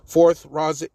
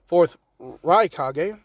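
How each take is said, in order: First: Fourth Raz, cut off mid-name as a slip; slip of the tongue. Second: Fourth Raikage said slowly, each syllable of Raikage spelled out; careful correction. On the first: Narrator stumbling over the name, fourth Raz blurted. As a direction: say fourth Raz as a botched start of Raikage. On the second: Narrator fixing the name, slow careful fourth Raikage. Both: Shown as a demonstration. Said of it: "not Raz".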